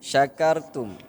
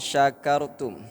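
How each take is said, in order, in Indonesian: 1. Kata ini dimulai dengan bunyi sh. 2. Kata ini dimulai dengan bunyi sh.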